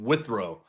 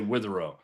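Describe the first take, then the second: First: The name is said with two syllables. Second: The name is said with three syllables. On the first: The speaker calls it right. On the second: The speaker calls it wrong.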